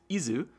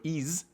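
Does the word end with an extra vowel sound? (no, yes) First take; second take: yes; no. First: The word ends with an added vowel sound. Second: The word ends on a consonant, no vowel. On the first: "the Japanese phonetic is Izu" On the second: "the more sort of English version where you don't have the katakana vowel"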